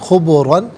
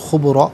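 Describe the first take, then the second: First: The word ends with an n sound. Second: The word ends with a long a vowel. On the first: The reading continues without stopping. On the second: The reading stops on this word.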